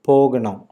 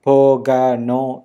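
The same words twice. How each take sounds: First: The middle a-sound is short and reduced. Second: The middle a-sound is full and drawn out. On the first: The speaker calls it right. "that A is a little smaller ... in a very natural tone" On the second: The speaker calls it wrong. "instead of saying"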